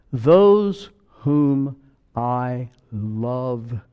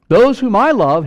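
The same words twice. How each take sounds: First: Drawn-out, very slow reading; slow scripture reading. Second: Loud, high proclamation of the verse; God speaking. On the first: Preacher reading Revelation to the church, slow solemn reading. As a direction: linger on every word of the verse. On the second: Preacher voicing God to the congregation, loud proclamation. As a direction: cry it out as God's own words. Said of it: "here's God speaking". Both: Acted.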